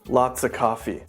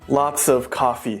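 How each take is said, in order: First: The word 'of' is reduced to 'uh'. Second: The word 'of' is fully pronounced.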